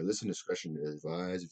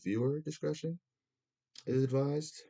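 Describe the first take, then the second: First: Said in the usual way. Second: Higher mock TV announcer warning; mock broadcast disclaimer, pitched up. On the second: Shown as a demonstration. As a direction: read it like a TV content warning. Warning before smoking on stream.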